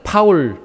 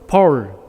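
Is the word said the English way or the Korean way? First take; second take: Korean; English. First: It is said with a Korean pronunciation. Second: It is said with an English pronunciation. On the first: "좀 더 알아듣기 쉽게 발음하면" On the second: "영어로는"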